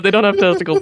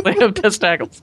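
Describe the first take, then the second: First: Said in the usual way. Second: "testicles" said as "testacles"; ogre pronunciation. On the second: Shown as a demonstration. Explaining what ogres have, "testicles" said "testacles". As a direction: say "testicles" with an "ack" in the middle, "test-ACK-ulls". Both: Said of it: "That's what ogres have".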